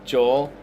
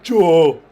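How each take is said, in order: First: It is said in his normal voice. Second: It is said in a put-on voice.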